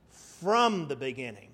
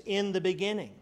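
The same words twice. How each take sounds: First: "From the beginning" with "From" hit hard; stress on from. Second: "In the beginning" with "In" hit hard; stress on in. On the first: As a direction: lean on "From" to set it against "In". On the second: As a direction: lean on "In" to set it against "From". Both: Shown as a demonstration. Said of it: "That's a huge difference".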